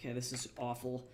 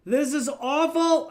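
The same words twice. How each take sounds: First: Said in the usual way. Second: High, loud cry of dismay; real outburst of exasperation; screaming. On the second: Real, not acted. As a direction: suddenly scream it out, drawn out and high. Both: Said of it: "I just started screaming".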